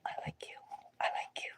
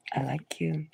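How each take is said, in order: First: Breathless whispered confession; very soft whispered I like you. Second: Said in the usual way. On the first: Shown as a demonstration. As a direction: whisper it shyly to a crush. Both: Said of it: "give somebody".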